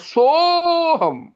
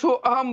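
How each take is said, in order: First: The 'so' is drawn out high, without 'a'. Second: A separate 'a' vowel is heard after 'so'. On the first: The speaker calls it right. "उसको ऊंचा खींचा जाता है" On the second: The speaker calls it wrong. "कई लोग क्या करते हैं, सो अहम बोल जाते हैं"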